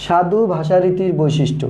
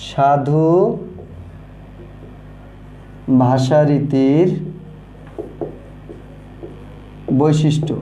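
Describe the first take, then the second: First: Said in the usual way. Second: সাধু ভাষারীতির বৈশিষ্ট্য dictated slowly, word by word with long pauses; drawn-out words for students to copy; slow dictation. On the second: Shown as a demonstration. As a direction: spell it out slowly while writing on the board. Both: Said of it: "আমরা একটু লিখি যে".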